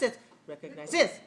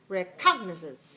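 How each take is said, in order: First: The stress is on the fourth syllable. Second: The stress is on the second syllable. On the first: "If it's like this" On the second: "If it's this way"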